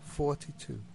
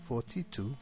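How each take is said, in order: First: The first syllable is stressed. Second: The first syllable is unstressed. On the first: The speaker calls it right. "the number 42 is pronounced 42" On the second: The speaker calls it wrong. "If it is said without stress on the first syllable"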